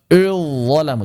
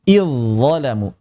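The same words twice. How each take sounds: First: The first vowel is thick and heavy. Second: The first vowel is thin and light. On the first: The speaker calls it wrong. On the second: The speaker calls it right.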